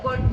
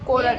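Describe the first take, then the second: First: It is said as one syllable, kort. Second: It is said as two syllables, ko-rat. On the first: The standard way of saying it. "કોર્ટ નું" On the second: The mother's stylish way of saying it. "એ તો સ્ટાઈલથી બોલે"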